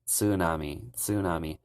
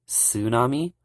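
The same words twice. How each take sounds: First: "tsunami" with a clear TS at the start; teacher showing the Japanese way. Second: "tsunami" with silent T, rising; the American way of "tsunami"; teacher showing the American way. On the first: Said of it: "in Japanese, they actually pronounce the T S". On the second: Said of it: "most Americans pronounce tsunami as". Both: Shown as a demonstration.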